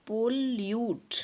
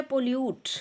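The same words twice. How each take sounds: First: pollute split as पोल... यूट; teacher sounding out pollute in two syllables. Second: Said in the usual way. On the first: Shown as a demonstration. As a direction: break pollute into two separate beats. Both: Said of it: "टू syllable word है".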